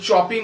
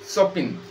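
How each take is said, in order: First: The name begins with a 'ch' sound. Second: The name begins with an 'sh' sound. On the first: The speaker calls it wrong. "ওটা চপিন উচ্চারণ করবো না" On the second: The speaker calls it right. "সিটার উচ্চারণ সয়ের মতো হবে।"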